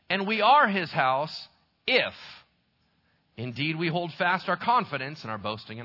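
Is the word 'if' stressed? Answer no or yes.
yes. The word 'if' is given extra stress. The promise depends on holding fast. "Is the word if, does it mean adherence? Here's how it would sound"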